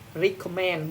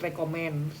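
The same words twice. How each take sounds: First: The first vowel sounds like 'ee'. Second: The first vowel sounds like 'eh'. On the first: The speaker calls it right. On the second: The speaker calls it wrong.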